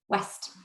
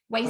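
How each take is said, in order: First: The vowel is a single short sound. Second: The vowel glides between two sounds. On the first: The speaker calls it wrong. "here's what I heard you say" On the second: The speaker calls it right. "Waste again is two vowel sounds, not one vowel sound"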